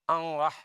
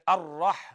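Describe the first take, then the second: First: The first vowel is followed by a nasal n sound. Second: The first vowel is followed by a clear r sound. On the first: The speaker calls it wrong. "It's a common mistake" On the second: The speaker calls it right. "like you read Ar-Rah, that was clear"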